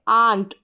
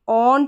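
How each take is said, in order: First: The vowel is an open 'ah' sound. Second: The vowel is a rounded 'aw' sound. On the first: The speaker calls it right. "यहाँ पर है आ" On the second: The speaker calls it wrong. "ऑन्ट नहीं पढ़ेंगे"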